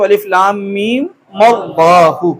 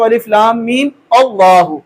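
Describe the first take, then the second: First: "मीम" carried over into "अल्लाहु" as "मल्लाहु"; short-vowelled run ending in linked "मल्लाहु"; joined. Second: Short "अलिफ लाम मीम", break, then "अल्लाहु"; unlinked "मीम" and "अल्लाहु" at talking pace; with a stop. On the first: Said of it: "अगर वस्ल के साथ पढ़ेंगे". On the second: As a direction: start "अल्लाहु" on A after "मीम". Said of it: "अगर वक्फ के साथ पढ़ेंगे". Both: Shown as a demonstration.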